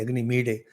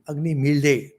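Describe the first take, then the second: First: The consonant in the second word sounds like d. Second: The consonant blends the l and d sounds. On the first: "some say" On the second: "Pronunciation is in between"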